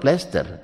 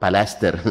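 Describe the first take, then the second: First: The word begins with a tight 'pl' cluster. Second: A vowel is inserted between 'p' and 'l'. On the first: This is how Javanese people say it. "orang Jawa bilang plaster" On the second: This is how local people say it. "Orang sini bilang palaster"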